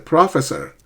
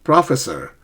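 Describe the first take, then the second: No difference in how they are said.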